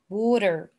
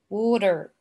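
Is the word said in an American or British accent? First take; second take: American; American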